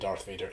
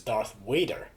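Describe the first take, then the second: First: The second word begins with a V sound. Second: The second word begins with a W sound. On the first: The speaker calls it right. "that V sound is important" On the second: The speaker calls it wrong. "a lot of Swedes refer to Darth Vader as Darth Wader"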